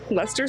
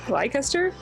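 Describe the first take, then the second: First: The name is said in its short local form. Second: The name is sounded out the way it is spelled. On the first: This is how locals actually say it. "It's pronounced Leicester Square" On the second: An outsider reads the name from its letters. "but it's spelled Leicester"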